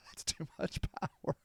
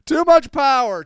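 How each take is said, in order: First: Very soft, breath-only rasp; hushed, airy strain; voiceless wheeze. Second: Loud, high-pitched cry; hammed-up high yell; mock outburst. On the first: Acted. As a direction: squeeze the words out with almost no voice. Wheezes the line out after laughing. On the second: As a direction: shout it out over the top. Mock outburst repeating the phrase.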